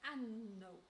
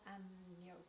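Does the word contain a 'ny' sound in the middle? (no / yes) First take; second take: no; yes. First: The middle sound is said without the 'ny' sound. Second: The middle sound is said with the 'ny' sound. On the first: The word is heard as baby donkey. The speaker calls it wrong. "he has difficulty pronouncing the sound ny" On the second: The word means lamb. The speaker calls it right. "not agneau"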